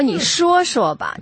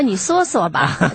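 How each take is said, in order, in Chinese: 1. 这是用大陆普通话口音说的。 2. 这是用台湾国语口音说的。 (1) "普通话就应该说你说说吧" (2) "你就不能说你说说吧"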